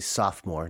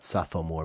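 First: The word is said with two syllables. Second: The word is said with three syllables. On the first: The speaker calls it right. "most Americans wouldn't know that there's a third O in there. So we say sophomore" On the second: The speaker calls it wrong. "not sophomore"

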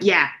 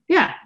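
First: It is said curtly, sounding rude and dismissive. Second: It is said in a softer, friendlier tone. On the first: The reply comes across as rude. "And I said it like that, like, ... the way I say that sometimes is so rude" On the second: The reply is meant as harmless. "And I thought I said it like"

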